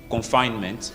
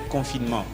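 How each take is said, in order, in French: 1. Le mot est prononcé avec des sons anglais. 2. Le mot est prononcé avec des sons français. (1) "Donc en anglais, on dit" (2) "quand on parle en français"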